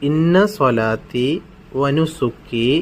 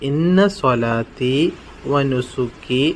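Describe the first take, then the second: The two takes are said the same way.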